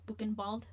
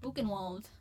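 First: The name is pronounced with German sounds. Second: The name is pronounced with American English sounds. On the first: "that's the German way" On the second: "Buchenwald is probably the American way"

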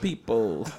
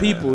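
First: The word has a short stop between syllables. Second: The word is said smoothly without a break. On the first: The speaker calls it right. "He did a little stop, like, in between people" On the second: The speaker calls it wrong. "Not people"

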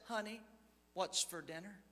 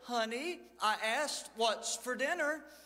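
First: It is said softly and quietly. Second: It is said a little louder.

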